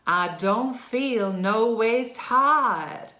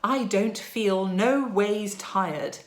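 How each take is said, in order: First: It is said in a Southern American accent. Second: It is said in an English accent. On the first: "find ourselves somewhere in the southern states of America" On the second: "in an English accent"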